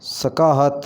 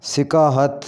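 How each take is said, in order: First: सकाहत opening on 'sa'; mispronounced first vowel. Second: सिकाहत opening on 'si'; correct pronunciation. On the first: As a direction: say सकाहत as 'sa-kaa-hat'. (सकाहत के 'स' पर ज़बर बोलें) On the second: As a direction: say सिकाहत as 'si-kaa-hat'. (सिकाहत के 'स' के नीचे ज़ेर बोलें) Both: Shown as a demonstration. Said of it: "इसको सही इस तरह करके पढ़ेंगे".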